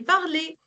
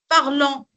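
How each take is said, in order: First: The ending is an open e sound. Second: The ending is a nasal vowel. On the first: The speaker calls it right. "c'est parler" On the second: The speaker calls it wrong. "On ne dit pas parlant"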